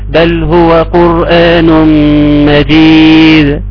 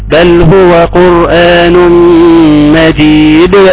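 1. الصدى على الحرف الأخير ضعيف جدا. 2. الصدى على الحرف الأخير ثقيل جدا. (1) "فلو خفت ما ينفعش تحس ان الحرف مش هيطلع" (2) "لا لا كده زيادة قوي"

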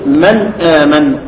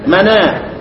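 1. تُنطق الهمزة بعد النون الساكنة. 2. تُحذف الهمزة، والنون تأخذ حركتها.

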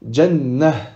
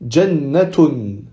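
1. Le mot finit sur une voyelle, sans t. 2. La fin se prononce avec un son t.

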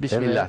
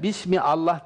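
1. 'Bism', durak olmadan doğrudan 'llah'a bağlanıyor. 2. 'Bism' ile 'Allah' arasında bir glottal durak var. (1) "Aradaki elifi hemzeyi okumadan geçiyoruz" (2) "oradaki elifi mesela Bismillah demiyoruz"

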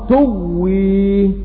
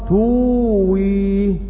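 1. يُدغم الـw ويُنطق مضعّفًا كـw مضعّفة. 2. يأتي حرف المد الطويل u ويليه w مفرد. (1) "والإضغام" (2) "الإظهار"

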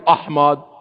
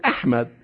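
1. الهمزة الأولى تُنطق مفخمة وثقيلة. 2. الهمزة الأولى تُنطق مرققة وخفيفة. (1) "ما قلت أحمد" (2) "قلت أحمد"

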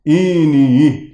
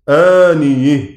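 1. كل الحروف في الكلمة تُمال نحو e. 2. الأول يبقى مفتوحًا، والآخر يُمال نحو e. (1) "قتيبة هيميل كلمة كلها على بعض" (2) "فيميل فتحة الياء والهاء في الوقف ويفتح الهمزة والألف"

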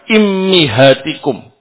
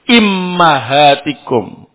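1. Dua vokal pertama adalah i dan i. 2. Dua vokal pertama adalah i dan a. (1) "Hamzahnya atau alifnya di kasrah, mimnya di kasrah juga" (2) "Alif atau hamzahnya di kasrah, mimnya di fathah"

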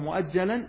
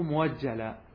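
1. تأتي الهمزة (الوقف الحنجري) بعد المقطع الأول. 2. يأتي صوت الواو بعد المقطع الأول.

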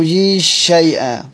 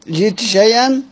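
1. يُدغم صوت t في sh الذي بعده. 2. يُنطق صوت t بوضوح قبل sh. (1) "الإدغام" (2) "الإظهار"

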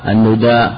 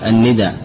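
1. الحركة الأولى ضمة؛ والثانية ممدودة. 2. الحركة الأولى كسرة؛ والثانية قصيرة. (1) "ثم ضمها مع المد" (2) "ثم مع القصر"

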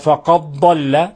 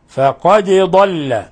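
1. تُدغم الدال في الصوت الذي يليها. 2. تُنطق الدال بوضوح مع ارتداد خفيف. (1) "فنكون أضغمنا الدال في الضاد، وهذا لحن" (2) "قراءة حفص إظهار الدال، فقد وإظهارها يتم بقلقلتها"

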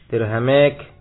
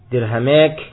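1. Vokal panjang condong ke 'e'. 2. Vokal panjang condong ke 'e'.

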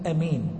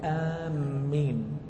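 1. الحركة الأولى قصيرة. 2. الميم مضعّفة بعد الحركة الطويلة. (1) "بالقصر يعني أمين" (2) "بتشديد الميم مع المد"

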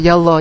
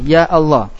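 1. Ya langsung menyambung ke Allah tanpa jeda. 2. Hentian glotal memisahkan ya dari Allah. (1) "Kalau enggak berubah jadi ya Allah" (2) "hamzah wasalnya berubah menjadi hamzah qati"

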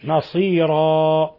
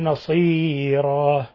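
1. حرف المد ممدود بالقدر الطبيعي. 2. حرف المد ممدود أكثر من اللازم.

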